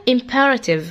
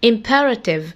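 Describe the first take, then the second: No difference in how they are said.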